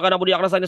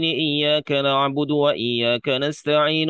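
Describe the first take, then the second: First: It is extremely fast, with letters blurred together. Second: It is fast, with every letter clearly pronounced. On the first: The speaker calls it wrong. "super cepat sampai hurufnya aja kagak jelas" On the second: The speaker calls it right. "Bacanya cepet"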